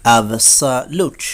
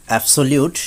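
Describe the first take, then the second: First: অ্যাবসোলিউট slowly broken up as "ab-sa-lut"; corrected pronunciation. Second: অ্যাবসোলিউট with "so-liut" at the end; common mispronunciation. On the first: Teacher correcting learners, slow অ্যাবসোলিউট as "ab-sa-lut". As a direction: say অ্যাবসোলিউট syllable by syllable, ending "sa-lut". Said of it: "সঠিক উচ্চারণ হবে". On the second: Teacher showing the common way, অ্যাবসোলিউট with "liut". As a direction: say অ্যাবসোলিউট as "ab-so-liut", run together. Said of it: "আমরা বলে থাকি". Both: Shown as a demonstration.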